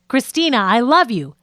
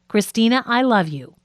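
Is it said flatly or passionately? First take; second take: passionately; flatly. First: It is said with passion, panting. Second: It is said flatly, without feeling.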